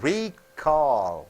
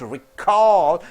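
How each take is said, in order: First: The stress is on the first syllable. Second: The stress is on the second syllable. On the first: A return of products. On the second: To remember.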